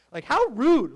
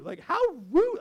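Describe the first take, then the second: First: Put-on a light sitcom-kid "how rude", punched loud; sassy little-girl catchphrase, louder; Stephanie Tanner. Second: Put-on a light sitcom-kid "how rude", pitched higher with "rude" rising; sassy catchphrase, higher and lilting; Stephanie Tanner. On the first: Pastor's tribute to Bob Saget, light Stephanie Tanner impression. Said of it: "here's my Stephanie Tanner moment". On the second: Pastor's tribute to Bob Saget, higher Stephanie Tanner take. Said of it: "That's good old Stephanie Tanner".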